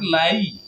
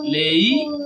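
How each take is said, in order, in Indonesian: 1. Vokalnya meluncur jelas dari 'a' ke 'i'. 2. Vokalnya bergeser ke bunyi 'e'. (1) "Yang benar lai" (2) "Lei atau lae. Nah, itu kurang tepat"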